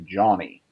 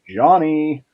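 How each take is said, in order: First: The name is said plainly, without special inflection. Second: The name is said with a playful, greeting-like inflection. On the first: "It doesn't just come as, come across and say Johnny" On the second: "it's kind of got that like, hey, how you doing kind of thing"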